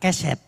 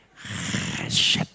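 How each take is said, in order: First: It starts with a plain, clean k sound. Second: It starts with a rough, raspy throat sound. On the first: The speaker calls it wrong. "Jangan keset" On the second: The speaker calls it right. "Pakai dahak sedikit"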